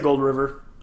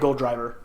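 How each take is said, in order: First: The second word sounds like 'river', without a d. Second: The second word sounds like 'driver', with a d. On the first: "am gonna say Gold River. I think it's cool" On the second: "it's definitely Gold Driver"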